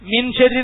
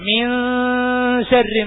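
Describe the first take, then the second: First: The n is pronounced fully and clearly. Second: The n is hidden and nasalized before sh. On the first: The speaker calls it wrong. "അങ്ങനെ ... എന്ന് പറയാൻ പറ്റുമോ? ഇല്ല" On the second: The speaker calls it right. "മിൻ ശർരി എന്ന് വേണം ഓതാൻ"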